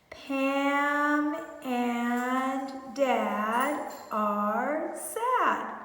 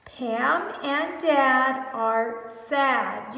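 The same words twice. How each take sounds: First: Pam and Dad stretched very slowly while pointing; very slow pointing read. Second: Pam and Dad are sad said very slowly; slow model reading. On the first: Teacher reading while pointing, word by word, very slowly. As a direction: drag the words out while pointing. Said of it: "Make sure you're pointing". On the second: Teacher modelling the sentence slowly for children. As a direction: read each word slowly for the kids. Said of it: "You read it". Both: Shown as a demonstration.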